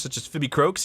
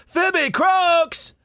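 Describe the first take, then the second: First: Said in the usual way. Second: Very high, loud cartoon character yelp; Phoebe Croaks voice. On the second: Shown as a demonstration. Voice actor bursting into a character voice, very high and loud. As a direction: announce your own name like a squawking toon.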